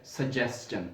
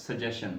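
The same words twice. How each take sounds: First: सजेस्चन with a clear s-t-ch, sa-JES-chan; correct pronunciation. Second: Suggestion said slowly, the common wrong way; slow wrong demo of suggestion; wrong pronunciation. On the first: Teacher modelling the right way, सजेस्चन. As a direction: slowly model सजेस्चन with the st sound. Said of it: "ये लफ्ज़ है सजेस्चन". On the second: Teacher slowly showing the wrong way, suggestion. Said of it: "this word is not suggestion". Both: Shown as a demonstration.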